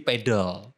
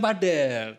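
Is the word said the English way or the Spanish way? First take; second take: English; Spanish. First: It is said the English way, like 'pedal'. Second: It is read as spelled, like 'pah-del'. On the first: This is how English speakers say it. "in English ya, itu jadi pedal" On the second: The name comes from Spanish. "harusnya padel"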